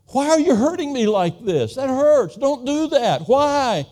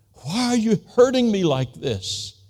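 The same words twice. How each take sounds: First: Put-on much higher and louder, a child's wailing plea; imitating a crying toddler begging her father; small daughter pleading. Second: Higher, anguished plea in his own voice; a man pleading with God in pain; crying out to God. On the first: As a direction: wail it like a hurt little girl. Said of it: "I could just hear her saying". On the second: Retold or imitated. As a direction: cry it up to heaven, hurt and lost. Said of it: "crying out".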